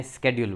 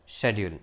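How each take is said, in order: First: સ્કેડ્યુલ as "SKED-yool"; American pronunciation. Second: શેડ્યુલ as "SHED-yool"; British pronunciation. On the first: Teacher showing the American form, American pronunciation. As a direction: start સ્કેડ્યુલ with "sk". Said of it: "અમેરિકાવાળા એને સ્કેડ્યુલ બોલે". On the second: Teacher modelling British English, British pronunciation. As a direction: start શેડ્યુલ with "sh". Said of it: "British English પ્રમાણે". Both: Shown as a demonstration.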